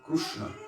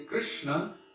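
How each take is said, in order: First: The first vowel is a u sound. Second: The first vowel is an i sound.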